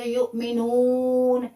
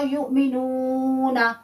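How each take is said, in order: First: युमिनून closed on a silent n; pausal ending. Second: युमिनूना said a little slower with the final a voiced; continuing ending. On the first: Teacher contrasting stopping with continuing. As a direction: end युमिनून on the n with no vowel. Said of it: "अगर तो आप रुकते हैं". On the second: Teacher contrasting continuing with stopping. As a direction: carry युमिनूना on with its last a. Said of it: "अगर नहीं रुकते". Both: Shown as a demonstration.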